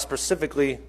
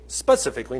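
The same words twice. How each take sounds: First: "specifically" said without its first s, as "pacifically"; slip of the tongue. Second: Said in the usual way. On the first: Real, not acted. Preacher stumbling in his sermon, "specifically" slipping into "pacifically". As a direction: drop the opening s of "specifically". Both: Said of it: "not pacifically, that's an ocean".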